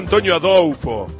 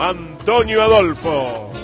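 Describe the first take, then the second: First: The l in Adolfo is a U sound. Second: The l in Adolfo is a clear L sound.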